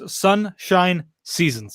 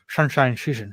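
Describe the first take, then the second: First: It is said slowly and carefully. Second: It is said quickly and slurred.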